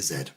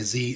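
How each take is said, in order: First: The letter is said the British way. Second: The letter is said the American way.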